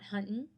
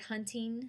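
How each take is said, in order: First: The final G sound is dropped. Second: The final G sound is pronounced. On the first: The speaker calls it wrong. "not huntin'" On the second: The speaker calls it right. "the word hunting has a G"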